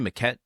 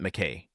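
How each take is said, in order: First: The name ends with a clear t sound. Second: The name ends in a vowel, without t. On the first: The speaker calls it wrong. "did I say Maquette?" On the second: The speaker calls it right. "I meant McKay"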